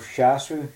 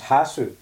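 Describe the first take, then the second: First: The word begins with an s sound. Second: The word begins with an h sound. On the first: This is the plain form without aspiration. The speaker calls it wrong. "So shasu is no longer" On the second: This is the aspirated form used after 'my'. The speaker calls it right. "it becomes hasu"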